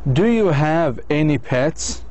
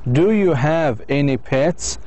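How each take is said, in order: First: Every word is pronounced fully and separately. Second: The same.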